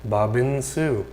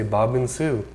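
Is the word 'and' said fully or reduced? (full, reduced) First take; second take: reduced; reduced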